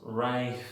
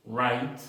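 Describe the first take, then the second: First: "right" with a raspy Spanish J before the T; drawn-out mistaken "right", GH pronounced; wrong sounded GH. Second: "Right" said cleanly as "rait"; crisp correct "Right", straight from vowel to T; silent GH. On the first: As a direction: mimic a learner saying "right" as "rai-kh-t". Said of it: "no pronunciamos". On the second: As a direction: say "Right" with no sound for the GH. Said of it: "se pronuncia solamente right". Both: Shown as a demonstration.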